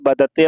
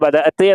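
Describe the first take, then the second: First: The word is said in a shortened form. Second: The word is said in its full form. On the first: This is the colloquial form. "Colloquial ശൈലി വരുന്ന സമയത്ത് ബദത്ത് എന്നാണ് പറയാ" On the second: This is the standard form. "ഇവിടെ ബദഅത്ത് എന്നാണ്"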